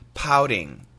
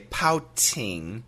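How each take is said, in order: First: The middle T is a soft, D-like flap. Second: The middle T is a clear, crisp T sound. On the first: The speaker calls it right. "It's actually a flat T sound and it sounds like a D" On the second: The speaker calls it wrong. "in America, we don't say pouting"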